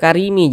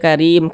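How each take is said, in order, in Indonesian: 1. Kata ini berakhir dengan vokal tambahan. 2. Kata ini berakhir dengan m mati. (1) "jangan dibaca karimi" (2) "tapi dibaca karim"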